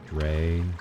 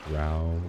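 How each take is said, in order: First: The word rhymes with gray. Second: The word rhymes with cow. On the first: "some people say dray, like gray" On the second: "I've heard some people say growl, like dark elves from other fantasy worlds"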